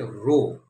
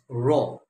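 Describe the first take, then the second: First: The vowel sounds like 'oh', as in boat. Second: The vowel sounds like 'aw', as in saw. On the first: The speaker calls it wrong. "Please don't say row" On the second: The speaker calls it right. "it's roar. R-O-A-R"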